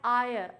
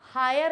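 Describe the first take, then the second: First: The word starts directly with a vowel. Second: The word starts with an h sound. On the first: The speaker calls it right. "इसे बोलते हैं आयर" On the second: The speaker calls it wrong. "हायर नहीं बोलते हैं"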